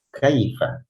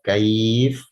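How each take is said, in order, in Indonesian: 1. Kata itu berakhir dengan vokal pendek. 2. Kata itu berakhir dengan konsonan. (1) "Jika dibaca wasal seperti itu bunyinya" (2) "Kalau dibaca waqaf"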